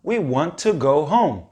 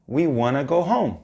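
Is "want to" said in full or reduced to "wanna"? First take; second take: full; reduced. First: "Want to" is said as two full words. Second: "Want to" is reduced to one word, "wanna".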